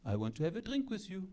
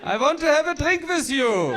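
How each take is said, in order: First: Soft, quick French-accented come-on; hushed French seducer; sexy French accent. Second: Loud, high-pitched German order; unsexy German accent. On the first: Frenchman asks for a drink, soft French accent. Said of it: "Like a French accent". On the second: German man demands a drink, loud German accent. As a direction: bark the come-on in a German accent. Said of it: "German, on the other hand". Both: Shown as a demonstration.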